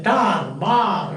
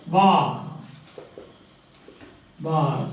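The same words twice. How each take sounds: First: "tar, bar" with the final R strongly sounded; rhotic R. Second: "Bar" ending on a long open vowel; silent final R. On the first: Teacher imitating how some people pronounce it, rhotic R. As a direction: make the R prominent ending "tar, bar". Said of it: "you will call it a rhotic pronunciation". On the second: Teacher drilling students on word endings, silent R. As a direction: say "Bar" with no R at all. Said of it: "never pronounced at the end of". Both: Shown as a demonstration.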